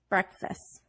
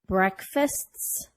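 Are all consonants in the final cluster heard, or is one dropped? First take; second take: one dropped; all heard. First: A consonant in the final cluster is dropped. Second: Every consonant in the final cluster is pronounced.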